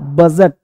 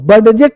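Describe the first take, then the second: First: No separate d sound comes before the j. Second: A separate d sound comes before the j. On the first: The speaker calls it right. "ये डी क्या है, silent है" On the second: The speaker calls it wrong. "बजट नहीं पढ़ना"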